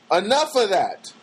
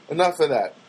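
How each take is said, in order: First: "Enough of that" higher and stretched out; emphatic repeat. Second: Said in the usual way. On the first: Real, not acted. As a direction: draw out "Enough of that" slowly, higher pitched.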